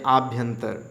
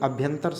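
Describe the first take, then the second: First: The first vowel is long and broad. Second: The first vowel is short. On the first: The speaker calls it wrong. "आप बहुत चौड़े से बोलते हैं आभ्यंतर" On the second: The speaker calls it right. "बल्कि अभ्यंतर सही है"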